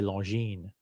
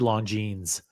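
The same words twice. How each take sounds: First: The final S is silent. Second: The final S is pronounced. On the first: "I say Longines" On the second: "I don't say the S on Longines. I don't say Longines"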